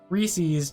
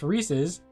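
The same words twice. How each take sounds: First: The word ends with an 'eez' sound. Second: The word ends with an 'iz' sound. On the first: The speaker calls it wrong. "say Reese's to rhyme it with P Cs because that's not a friggin' word" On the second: The speaker calls it right. "It's Reese's Pieces"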